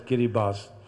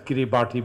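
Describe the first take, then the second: First: The name is given its actual local pronunciation. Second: The name is given its literal, letter-based reading. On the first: "but pronounced as" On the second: "it's written as"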